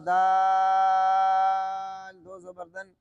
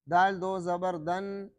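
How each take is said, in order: First: The vowels are drawn out and long. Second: The vowels are said short and quick. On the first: The speaker calls it wrong. "खींच कर पढ़ते हैं" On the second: The speaker calls it right. "हमने अपने असातिज़ा से इस तरह पढ़ा है"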